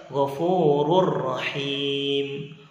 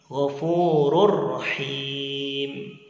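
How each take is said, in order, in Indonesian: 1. Bunyi n menyatu ke dalam r yang mengikutinya. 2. Bunyi n menyatu ke dalam r yang mengikutinya.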